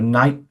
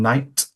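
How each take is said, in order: First: The final T is a glottal stop. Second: The final T is fully articulated. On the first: "uses a glottal stop instead of articulated T" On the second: "rather than"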